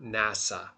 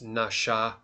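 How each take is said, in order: First: The middle consonant is an s sound. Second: The middle consonant is an sh sound. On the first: The speaker calls it wrong. "not nasa" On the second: The speaker calls it right. "It makes a S H sound"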